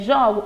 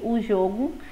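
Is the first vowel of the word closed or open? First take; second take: open; closed. First: The first vowel is an open o. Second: The first vowel is a closed o. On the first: It is the verb, I play. "som aberto" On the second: It is the noun, a game. "som fechado"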